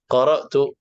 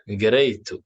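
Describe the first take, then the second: First: It begins with q and has a glottal stop. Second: It begins with g and has a y sound.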